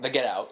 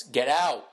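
First: "Get Out" run together like a noun; unwanted title reading. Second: "Get Out" as a firm command; command stress. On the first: Co-host showing how not to say it, "Get Out" as a noun. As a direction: say "Get Out" as a thing, not a command. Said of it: "it's not like the Get Out". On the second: Co-host correcting the title reading, "Get Out" as a command. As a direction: land firmly on both words of "Get Out". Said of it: "it's not like the Get Out. It's". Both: Shown as a demonstration.

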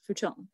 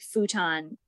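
First: Futon said the Japanese way, f'ton; soft futon with a rounded "ton"; Japanese pronunciation. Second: Futon said the American way, FOO-tahn; Americanized pronunciation. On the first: Telling friends how Japan says it, Japanese futon, softly. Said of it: "in Japan is pronounced". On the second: Explaining Americanized words that make parents cringe, Americanized futon. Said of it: "Japanese words that have been Americanized". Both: Shown as a demonstration.

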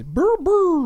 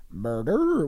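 First: High, loud double monster cry; two high-pitched wordless creature bursts; Grimace. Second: Grimace. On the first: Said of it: "He says". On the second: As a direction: lull them with a drawn-out monster coo. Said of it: "in a very hypnotic voice". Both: Acted.

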